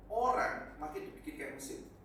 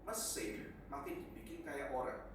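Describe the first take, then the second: First: "orang" punched high and loud at the front; stress on orang. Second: Said in the usual way. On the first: Shown as a demonstration. Preacher flips the phrase to his congregation, stressing "orang". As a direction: hit the word "orang" hard to flip the phrase.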